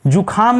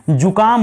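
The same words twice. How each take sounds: First: जुखाम with a breathy kha; wrong form जुखाम, ख aspirated. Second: जुकाम with an unaspirated ka; corrected जुकाम, plain क, falling. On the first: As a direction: say ju-khaam, puff of air on ख in जुखाम. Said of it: "जुखाम नहीं होता है". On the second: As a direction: say ju-kaam, no puff on क in जुकाम. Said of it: "जुकाम होता है". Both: Shown as a demonstration.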